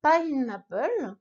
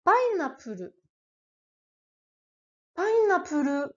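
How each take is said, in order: First: Pineapple in English, slow. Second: Pineapple as painappuru; Japanese pineapple. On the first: Teacher contrasting the English original. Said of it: "vient évidemment de l'anglais". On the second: Teacher modelling the katakana word. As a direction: katakana pineapple, each mora clear. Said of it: "prononcé bien à la française". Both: Shown as a demonstration.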